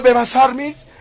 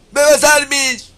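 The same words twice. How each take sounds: First: Loud taunt. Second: High, loud, drawn-out fake crying on "¡Bebas armies!"; hammed-up sobbing cry of "¡Bebas armies!"; mock wailing. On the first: Real, not acted. Taunting his critics by name. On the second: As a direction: shriek "¡Bebas armies!" like a crybaby, slowly. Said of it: "Eso deben gritar".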